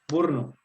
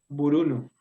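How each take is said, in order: First: The middle vowel is dropped from the word. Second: The middle vowel is kept in the word. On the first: The speaker calls it right. "sino burno, se nos va" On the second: The speaker calls it wrong. "no quedaría buruno"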